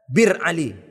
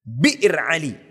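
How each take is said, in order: First: The first word has no glottal catch. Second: The first word has a glottal catch. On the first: The speaker calls it wrong. "Itu karena awak yang tidak tepat mengucapkannya" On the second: The speaker calls it right. "Yang menjadi miqat itu disebut bi'r Ali"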